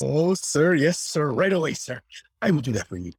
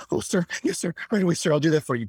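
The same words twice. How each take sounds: First: Eager servile bellhop voice; young recruit. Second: Higher, quicker eager yes-sir voice; young recruit. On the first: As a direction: snap to it, yes sir. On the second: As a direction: hurry to obey, yes sir. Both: Retold or imitated.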